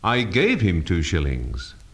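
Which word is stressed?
gave. The stress falls on the word gave. It was given, not lent. "not lent him"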